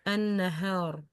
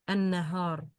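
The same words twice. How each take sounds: The two takes are said the same way.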